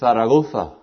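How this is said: The z is sounded like th. "we say the Z like a T-H sound"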